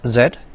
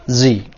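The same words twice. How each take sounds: First: The letter name is said the non-American way. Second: The letter name is said the American way. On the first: "We pronounce it as Z" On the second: "Americans pronounce it as Z"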